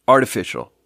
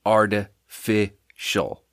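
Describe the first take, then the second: First: Said in the usual way. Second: "artificial" broken into slow, separate chunks; syllable by syllable. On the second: Shown as a demonstration. Host judging the drink's taste, "artificial" slowly broken up. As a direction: pause between each part of "artificial". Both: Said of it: "Three syllables".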